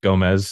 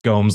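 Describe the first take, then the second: First: It is said as the common Spanish-style name. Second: It is said rhyming with the word Holmes. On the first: The speaker calls it wrong. "A lot of people think it's Gomez" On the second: The speaker calls it right. "like Holmes with a G"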